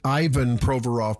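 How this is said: The name is said with an English pronunciation. "we might pronounce it Ivan Proforov"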